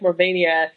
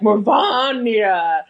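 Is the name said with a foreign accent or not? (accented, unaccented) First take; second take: unaccented; accented. First: The name is said without a foreign accent. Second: The name is said with a foreign accent. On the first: "some people are like Morvania" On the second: "the people with the accents are like Morvania"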